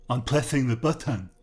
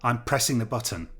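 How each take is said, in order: First: "pressing" lisped with th for s; "pressing the button" in a jeering lisp; mocking lisp. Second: Said in the usual way. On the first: A narrator's reading. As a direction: mimic "pressing" with a taunting lisp. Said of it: "Travis repeated in a mocking lisp".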